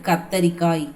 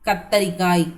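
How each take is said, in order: The two takes are said the same way.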